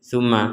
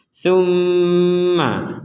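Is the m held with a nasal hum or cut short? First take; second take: short; hummed. First: The m is cut short with no hum. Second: The m is held with a long nasal hum. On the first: The speaker calls it wrong. "Gak ada itu, gak ada dengung" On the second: The speaker calls it right. "kita akan mengucapkan ma ketika dengungannya sudah sempurna"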